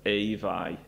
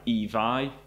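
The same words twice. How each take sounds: First: The vowel glides as a diphthong. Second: The vowel is a single plain vowel. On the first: This is the northern form. "in the north, it was more like" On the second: This is the southern form. "the most common pronunciation, which is in this case is the southern pronunciation"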